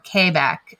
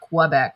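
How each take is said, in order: First: It is said with a local Quebec pronunciation. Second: It is said with an American English pronunciation. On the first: "as you would say if you're from there" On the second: "as uh, Americans would say"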